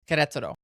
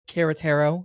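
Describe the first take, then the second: First: The name is pronounced closer to Spanish sounds. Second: The name is pronounced with American English sounds. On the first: The speaker calls it right. "That's how you say it" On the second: The speaker calls it wrong.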